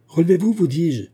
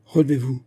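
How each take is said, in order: First: «Relevez-vous» lancé plus haut et plus fort, «vous dis-je» martelé; répète l'ordre en haussant la voix, à bout; ordre crié. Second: Said in the usual way. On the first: Acted. Père répète l'ordre, insistant. (le magistrat crie à son fils de se relever)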